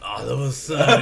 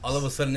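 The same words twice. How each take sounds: First: It is said with feeling and doubt. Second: It is said flatly, without feeling.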